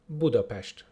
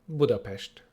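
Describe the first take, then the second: The two takes are said the same way.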